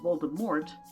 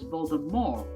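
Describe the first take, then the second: First: The name ends with a clear T sound. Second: The name ends without any T sound. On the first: The speaker calls it wrong. "with a hard T sound" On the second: The speaker calls it right. "with no T sound at all"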